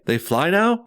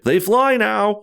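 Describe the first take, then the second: First: An impression of Finn, said as a question. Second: An impression of Poe, said super over the top.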